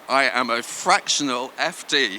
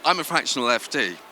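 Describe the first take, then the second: First: It is said slowly. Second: It is said at normal speed.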